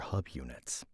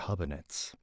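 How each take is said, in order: First: The word ends with the word "units." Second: The word ends with an "-anids" sound. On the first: The speaker calls it right. "that's a little better" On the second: The speaker calls it wrong. "can't believe that I've been mispronouncing things"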